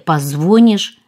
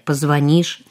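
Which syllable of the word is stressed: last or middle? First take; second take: middle; last. First: The stress is on the middle syllable. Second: The stress is on the last syllable. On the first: The speaker calls it wrong. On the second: The speaker calls it right.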